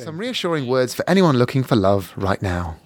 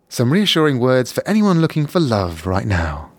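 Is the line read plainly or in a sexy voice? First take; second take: plainly; sexy. First: It is read in a plain, neutral voice. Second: It is read in a sexier, sultry voice.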